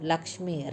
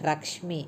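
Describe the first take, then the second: First: The word begins with an l sound. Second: The word begins with an r sound. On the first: The speaker calls it right. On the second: The speaker calls it wrong.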